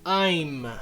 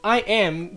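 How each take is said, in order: First: It is said as one contracted syllable. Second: It is said as two separate words.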